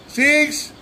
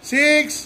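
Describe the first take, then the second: No difference in how they are said.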